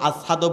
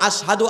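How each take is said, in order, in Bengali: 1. শব্দটি অস্পষ্টভাবে উচ্চারিত, তোতলানোর মতো। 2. শব্দটি স্পষ্ট ও পরিষ্কারভাবে উচ্চারিত।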